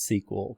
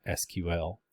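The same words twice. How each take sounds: First: SEQUEL pronounced as one word, "see-kwul". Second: S Q L said as three separate letter names; spelled out. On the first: Instructor telling class how it's pronounced, "sequel" as a word. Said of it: "it's pronounced sequel". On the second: Instructor explaining the renamed language, S Q L spelled out. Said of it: "just called it S Q L". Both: Shown as a demonstration.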